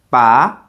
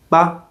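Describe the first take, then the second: First: The pitch rises toward the end. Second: The syllable is short and light. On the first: It means to pull out. "For the second tone" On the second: It marks a suggestion at sentence end. "there's also a neutral tone"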